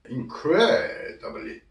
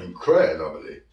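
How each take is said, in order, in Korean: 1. 이 단어는 더 느리게 발음됩니다. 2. 이 단어는 빠르게 발음됩니다.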